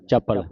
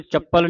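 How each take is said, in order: First: ਚੱਪਲ as cha-pal with a soft single p; soft pronunciation. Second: ਚੱਪਲ with a held, doubled p; hard doubled p. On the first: Teacher showing students the correct reading, soft pronunciation. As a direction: say ਚੱਪਲ lightly, without doubling the p. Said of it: "ਪੋਲਾ ਉਚਾਰਨ ਕਰਨਾ". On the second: Teacher showing students what not to say, hard doubled p. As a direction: press on the p in ਚੱਪਲ. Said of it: "ਇਸ ਨੂੰ ਚੱਪਲ ਨਹੀਂ ਉਚਾਰਨ ਕਰਨਾ". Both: Shown as a demonstration.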